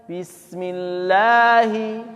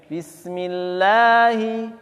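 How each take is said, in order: The two takes are said the same way.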